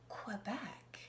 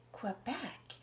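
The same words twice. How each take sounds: The two takes are said the same way.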